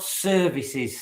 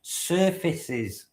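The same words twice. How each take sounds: First: SERVICES with a clear V in the middle; SERVICES, the mistaken word, said slowly for contrast; SERVICES as the wrong word. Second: SURFACES with a clear F in the middle; SURFACES as the correction. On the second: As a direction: pitch SURFACES high, stressing the F sound. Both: Shown as a demonstration. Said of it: "not services, Steph, surfaces".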